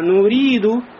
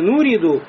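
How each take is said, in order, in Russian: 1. Второй гласный тянется долго. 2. Второй гласный краткий. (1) "а нуриду" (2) "Не нуриду"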